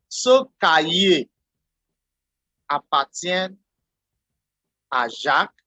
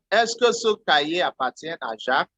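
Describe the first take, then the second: First: Slow, with "Jacques" rising at the end; rising question tune. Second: Said in the usual way. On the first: Shown as a demonstration. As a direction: let "Jacques" lift into a question. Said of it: "by making your voice go up". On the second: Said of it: "by using the phrase".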